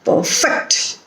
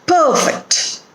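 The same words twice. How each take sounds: First: The stress is on the second syllable. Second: The stress is on the first syllable.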